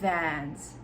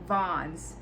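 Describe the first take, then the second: First: The vowel is the English 'a' of 'cat'. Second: The vowel is an open 'ah' sound.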